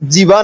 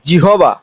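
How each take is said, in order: First: The h sound in the middle is dropped. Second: The h sound in the middle is pronounced. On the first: The speaker calls it wrong. "এটা কিন্তু জিবা না" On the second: The speaker calls it right.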